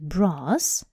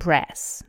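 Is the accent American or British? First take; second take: British; American. First: It has a British long 'ah' vowel. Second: It has an American short 'a' vowel.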